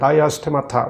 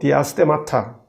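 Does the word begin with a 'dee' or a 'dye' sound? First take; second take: dye; dee. First: The word begins with a 'dye' sound. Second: The word begins with a 'dee' sound. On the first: This is the English pronunciation. "영어로 발음하면" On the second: This is the Greek pronunciation. "헬라어로"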